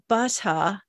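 It is said in a British accent.

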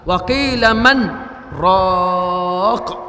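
There is a brief pause after man.

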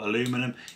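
It is pronounced the American way, four syllables.

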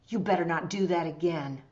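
It sounds angry and sternly warning. The speaker really wants to warn them. "I'm angry because, I mean, I really want to warn them"

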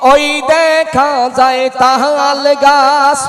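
It is recited in an exaggerated, put-on stage voice. "তাহিরি হুজুর কিভাবে স্টেজে আবৃত্তি করে, স্টেজে এইভাবে বলে"

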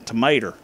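Tomato is said in a Mississippi redneck accent. This is how the local rednecks say it. The speaker calls it right. "You gotta say it like that"

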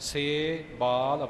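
The word is split with a break inside. The speaker calls it wrong. "ਵੱਖਰਾ ਵੱਖਰਾ ਨਹੀਂ ਕਰਨਾ"

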